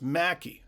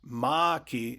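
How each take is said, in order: First: The first vowel is short, as in 'back'. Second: The first vowel is open, as in 'father'. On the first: The speaker calls it right. "it's pronounced Mackie" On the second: The speaker calls it wrong. "not Maki"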